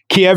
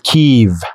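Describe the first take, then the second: First: The name is said the Russian way. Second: The name is said the Ukrainian way. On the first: The speaker calls it wrong. "Kiev is a Russian, and there's the Russian pronunciation" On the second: The speaker calls it right. "in my best Ukrainian accent... it is kind of a longer I... it doesn't turn into an E"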